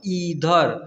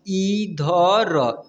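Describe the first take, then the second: First: Said in the usual way. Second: Very slow, drawn-out reading; syllable by syllable. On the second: Shown as a demonstration. Teacher modelling a word for children, very slowly. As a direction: read it syllable by syllable.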